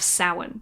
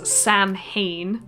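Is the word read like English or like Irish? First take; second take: Irish; English. First: The word is pronounced the Irish way. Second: The word is pronounced as if it were English. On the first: The speaker calls it right. "It's an Irish word, so that's why we don't say it like it's in English" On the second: The speaker calls it wrong. "commonly mispronounced in T V shows as"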